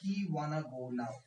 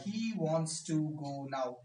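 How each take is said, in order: First: The words 'wants to' are reduced to 'wanna'. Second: The words 'wants to' are fully pronounced.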